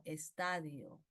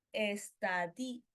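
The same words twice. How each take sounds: First: Slow, lower "estadio", stressed on TA; teacherly correction, low "estadio" with weight on TA. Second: Very slow "estadio", stressing the I; wrong stress on DI. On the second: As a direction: stretch "estadio" into es-ta-DÍÍ... o. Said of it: "no, estadio". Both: Shown as a demonstration.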